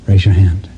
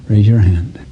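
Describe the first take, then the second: No difference in how they are said.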